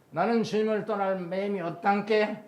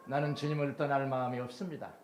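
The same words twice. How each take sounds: First: Jeolla dialect ending 없단께, higher and louder. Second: Said in the usual way. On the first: Shown as a demonstration. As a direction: read the prayer line like a Jeolla local. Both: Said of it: "표준말로 썼습니다".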